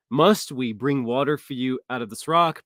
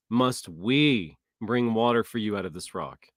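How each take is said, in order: First: Said in the usual way. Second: Slow, with "we" leaned on; stress on we. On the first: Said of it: "Moses is actually taking the credit". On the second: Shown as a demonstration. Showing Moses taking credit, slow with "we" stressed. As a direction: press "we" as Moses claims the credit. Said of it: "He literally says".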